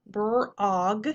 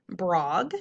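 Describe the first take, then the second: First: "brog" broken into brr and og; sounded out. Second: Said in the usual way. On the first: Shown as a demonstration. Teacher decoding a syllable for pupils, sounded out in parts. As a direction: stretch "brog" in two parts with rising end. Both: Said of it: "ah, syllable".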